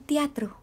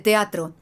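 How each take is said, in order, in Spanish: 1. La palabra se dice débilmente, sin apoyo de voz. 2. La palabra se dice con proyección fuerte y apoyada. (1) "cero apoyo" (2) "se dice teatro"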